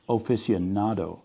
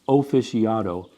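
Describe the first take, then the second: First: It is said with the 'n' sound, as aficionado. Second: It is said without the 'n' sound, as officiado. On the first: The speaker calls it right. "It's aficionado" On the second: The speaker calls it wrong. "it's not offic- officiado"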